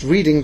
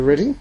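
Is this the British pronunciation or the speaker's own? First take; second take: speaker's own; British. First: It is said the way the speaker's group reads it. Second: It is said the way British people say it. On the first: "we would read it Reading" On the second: "but the British say Reading"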